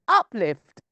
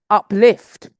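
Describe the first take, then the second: First: The stress is on the first syllable. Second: The stress is on the second syllable. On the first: "I've said it up" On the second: "they want me to say it's the second"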